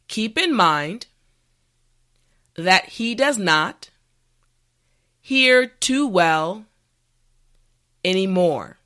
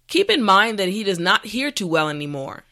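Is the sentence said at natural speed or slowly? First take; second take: slowly; natural speed. First: The sentence is said slowly and carefully. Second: The sentence is said at a natural speed. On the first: "this time repeat after me" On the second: "this time we will go at a more natural pace"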